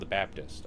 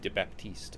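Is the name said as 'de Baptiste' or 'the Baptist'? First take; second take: the Baptist; de Baptiste. First: It is said as 'the Baptist'. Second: It is said as 'de Baptiste'. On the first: The speaker calls it right. "you're supposed to say it like that" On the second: The speaker calls it wrong. "Why do I always say de Baptiste?"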